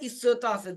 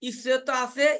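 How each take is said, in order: First: It is said as an answer, falling. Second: It is asked as a question, rising.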